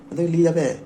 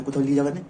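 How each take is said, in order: First: নিয়ে punched louder, falling; stress on নিয়ে. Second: Said in the usual way. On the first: Shown as a demonstration. Telling friends whom to take along, নিয়ে stressed loud. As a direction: hit the word নিয়ে hard, louder than before it.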